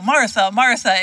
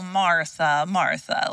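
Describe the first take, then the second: First: It is said in a sharp, scolding tone. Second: It is said in a sweet, affectionate tone. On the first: The speaker is reprimanding her. "It could be like the scolding tone" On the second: The speaker feels fond sympathy for her. "oh, Martha, Martha, like, bless your heart. Like, oh, you sweet girl"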